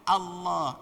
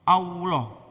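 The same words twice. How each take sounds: First: Unrounded lips go straight into the L sound. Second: Rounded lips add a w-like glide before the L. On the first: The speaker calls it right. "Allah aja mulutnya tidak monyong" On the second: The speaker calls it wrong. "wonyong dulu sehingga ada sisipan W"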